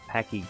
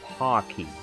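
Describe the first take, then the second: First: The first vowel sounds like in 'pack'. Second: The first vowel sounds like in 'pock'. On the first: The speaker calls it wrong. "Or did I pronounce that wrong too?" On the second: The speaker calls it right. "it's pronounced Pocky"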